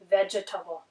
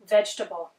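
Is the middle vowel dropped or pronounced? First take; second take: pronounced; dropped. First: The middle vowel is pronounced, giving four syllables. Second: The middle vowel is dropped, giving three syllables. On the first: "I just gave you the strong form of the word" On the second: "I've actually omitted that E in the middle altogether"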